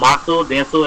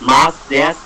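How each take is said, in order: First: The final u vowels are clearly pronounced. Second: The final u vowels are dropped. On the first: The speaker calls it wrong. "এটার উচ্চারণ হওয়ার কথা ছিল মাসু দেসু এরকম" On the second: The speaker calls it right. "যখন মাস যখন থাকে তখন হচ্ছে মাস দেশ"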